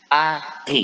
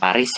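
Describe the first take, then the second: First: The final s is silent. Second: The final s is pronounced. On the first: The speaker calls it right. "S-nya jangan dibaca ya" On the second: The speaker calls it wrong. "Bukan Paris ya"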